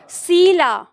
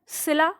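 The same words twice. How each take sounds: First: सीला with ई held long and pressed. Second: सिला with a quick clipped इ; short quick ई. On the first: Teacher showing the class the long ई in सीला. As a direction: lean on the ई in सीला, stretch it. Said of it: "लंबा कर रहे हैं". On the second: Teacher contrasting the short इ in सिला with सीला. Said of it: "ई जो है वो जल्दी बोल रहे हैं". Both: Shown as a demonstration.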